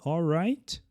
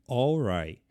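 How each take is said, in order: First: The final T sound is clearly pronounced. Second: The final T sound is dropped.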